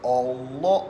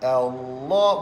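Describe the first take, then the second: First: The opening vowel is a rounded 'o' sound. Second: The opening vowel is an open 'a' sound. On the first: The speaker calls it wrong. "Bukan O" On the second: The speaker calls it right. "A adalah huruf infitah"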